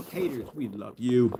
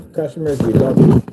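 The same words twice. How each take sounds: First: Soft, drawn-out mock affection; mock-tender aside. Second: Loud, emphatic declaration of love; hearty shout-out. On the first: Vlogger signing off to haters, mock-tender aside. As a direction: say it slowly and much softer. Same sign-off, aimed at haters. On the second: Acted. Vlogger signing off to loyal customers, hearty shout-out. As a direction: call it out proudly to the fans. Sign-off contrasting customers with haters.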